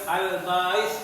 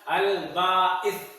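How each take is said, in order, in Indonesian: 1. Bunyinya mengalir terus tanpa hentian glotis. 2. Bunyinya ditahan sebentar dengan hentian glotis. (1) "bukan Al-Ba'its" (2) "ada komanya. Berarti ada ditahan"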